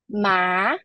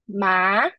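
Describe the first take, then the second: First: The pitch rises from middle to high. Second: The same.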